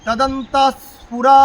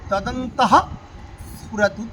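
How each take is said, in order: First: Chanted, তদন্ত glides into স্ফুরা with a held স; joined-up chant. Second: তদন্তঃ, pause, স্ফুরতু, each said separately; broken into words. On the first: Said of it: "একসঙ্গে করলে কি হচ্ছে?". (chanted, তদন্ত স্ফুরা জুড়ে সুরে টেনে) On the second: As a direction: keep তদন্তঃ and স্ফুরতু apart, with the breath on ঃ. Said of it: "আমি ভেঙে ভেঙে বলছি". (তদন্তঃ স্ফুরতু আলাদা করে বলা) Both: Shown as a demonstration.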